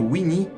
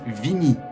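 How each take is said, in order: First: The name begins with a W sound. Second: The name begins with a V sound. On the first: This is the usual form of the name. The speaker calls it right. "au lieu de dire Winnie" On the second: This is how the French dub says the name. The speaker calls it wrong. "ils disent Vinny"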